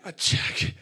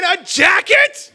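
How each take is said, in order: First: Voiceless, stunned disbelief; stunned whisper. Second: Very high, slow, loud shriek of disbelief; outraged inner scream. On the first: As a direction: let the disappointment out on breath alone. Stunned first reaction to gift. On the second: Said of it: "But inside I'm thinking". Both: Acted.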